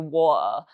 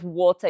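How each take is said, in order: First: The t is dropped in Yorkshire style. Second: The t in the middle is clearly said.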